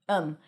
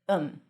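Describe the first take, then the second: First: The th is dropped, leaving a short um. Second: The same.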